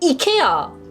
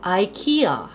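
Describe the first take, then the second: First: It begins with an 'ee' sound, strongly accented. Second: It begins with an 'eye' sound, relaxed. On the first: It is the traditional way. "이케아도 이에 거의 사투리식으로 액센트를 넣어야 돼" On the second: It is easier to say. "아이키아 하면 얼마나 변해"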